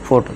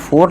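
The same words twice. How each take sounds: First: The vowel is said short and quick. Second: The vowel is drawn out long. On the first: The speaker calls it right. "Short में बोलना है" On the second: The speaker calls it wrong. "यहाँ फुट नहीं पढ़ना है"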